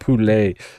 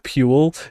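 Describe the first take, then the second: First: The name is said as two syllables. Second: The name is said as one syllable. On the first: The speaker calls it right. "It has to be like poulet" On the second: The speaker calls it wrong. "just the word Pule just sounds rancid"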